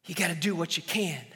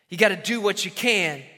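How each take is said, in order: First: Low and soft, almost breathed; quiet sermon refrain; hushed refrain. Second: Said in the usual way. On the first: Shown as a demonstration. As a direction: whisper the point first. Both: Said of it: "repeated refrain".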